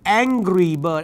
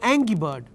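First: The R sound in angry is clearly pronounced. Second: The R sound in angry is dropped. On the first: The speaker calls it right. "you got to get the R" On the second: The speaker calls it wrong. "when there is an R, you got to get the R"

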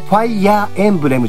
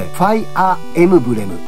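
First: It is said with 'en' before 'bu'. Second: It is said with 'emu' before 'bu'. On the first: The speaker calls it wrong. "ファイヤーエンブレムじゃなくて" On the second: The speaker calls it right. "ファイアーエムブレムみたいなね"

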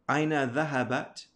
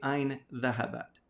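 First: The first word ends in an 'a' vowel. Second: The first word ends in a consonant. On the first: The speaker calls it right. "you have to put that fatha" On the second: The speaker calls it wrong. "You can't say ayn dhahabat"

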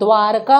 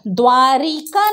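First: The middle syllable has no 'i' vowel. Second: The middle syllable has an 'i' vowel. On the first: The speaker calls it right. "द्वारका होता" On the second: The speaker calls it wrong. "द्वारिका नहीं होता"

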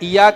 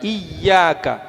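First: The y sound is short and single. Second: The y sound is held long and doubled. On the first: The speaker calls it wrong. "ഇയാക്ക എന്ന് വായിക്കുമോ? ഇല്ല" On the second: The speaker calls it right. "രണ്ട് യാ പറയുന്ന സൗണ്ട് എടുക്കണം അവിടെ"

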